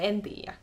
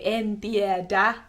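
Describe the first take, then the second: First: The second word is said shortened and smushed. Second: The second word is said in full. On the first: This is the casual spoken form. "you can just say en tiedä" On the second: This is the standard written form. "you don't have to say en tiedä"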